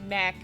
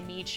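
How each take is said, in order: First: The vowel sounds like the 'a' in cat. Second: The vowel sounds like the 'ee' in see. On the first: This is how the speaker has always said it. "I always said Mac" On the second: This is how the game's makers say it. "the WolfQuest people say Meech"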